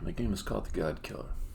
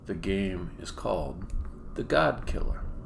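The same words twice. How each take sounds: First: The words are run together quickly. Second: The words are said separately and clearly. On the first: The speaker calls it wrong. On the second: The speaker calls it right.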